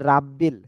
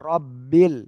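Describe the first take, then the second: First: The first vowel is bright and light, like 'a'. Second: The first vowel is dark and heavy, like 'o'. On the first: The speaker calls it wrong. "অনেকে বলে রাব্বিল।" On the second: The speaker calls it right. "রর উপরে জবর মোটা আছে পড়তে হবে।"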